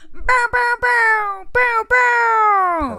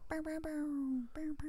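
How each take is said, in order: First: It is said with more enthusiasm. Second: It is said with little enthusiasm.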